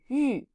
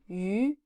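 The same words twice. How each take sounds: First: The pitch falls sharply from high. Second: The pitch rises from middle to high. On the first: "and fourth tone" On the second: "second tone"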